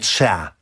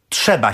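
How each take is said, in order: First: The word is said with the b dropped. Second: The word is said in full with a b. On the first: The speaker calls it wrong. "a nie trzea" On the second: The speaker calls it right. "Trzeba się mówi"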